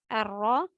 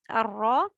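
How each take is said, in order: No difference in how they are said.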